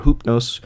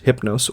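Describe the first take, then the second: First: Hoopnos said as "HOOP-nohss"; ancient Greek pronunciation. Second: Hypnos said as "HIP-nohss"; English-Latin pronunciation. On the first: Narrator naming one god both ways, Hoopnos said as "HOOP-nohss". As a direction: give Hoopnos its Greek "oo" vowel. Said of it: "the original ancient Greek form". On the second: Narrator naming one god both ways, Hypnos said as "HIP-nohss". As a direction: give Hypnos its short English i. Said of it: "one is the more English pronunciation". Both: Shown as a demonstration.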